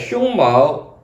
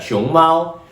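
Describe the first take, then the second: First: The tones are those of the word for chest hair. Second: The tones are those of the word for panda. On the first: Chest hair. "and chest hair" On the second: A panda.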